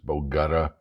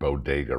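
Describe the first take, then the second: First: The word is said in a garbled form. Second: The word is said in its usual form. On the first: The speaker calls it wrong. "What you pronounce it as bogutta, something like that" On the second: The speaker calls it right. "can't even pronounce the word bodega right"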